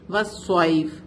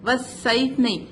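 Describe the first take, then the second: First: والصیف with heavy emphatic ṣad; correct reading. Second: والصیف with light sibilant s; wrong reading. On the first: Teacher shows student correct heavy ṣad. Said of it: "صاد is heavy letter". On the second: Teacher shows student wrong light s. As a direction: say والصیف with a thin s like sin. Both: Shown as a demonstration.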